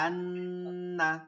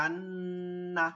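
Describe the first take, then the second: First: The n sound is held long through the nose. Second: The same.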